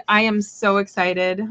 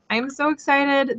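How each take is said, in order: First: Said in the usual way. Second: Higher, gushing excitement; excited. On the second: Real, not acted. Streamer repeats the webcam news to viewers, gushing higher. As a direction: let the joy lift it up.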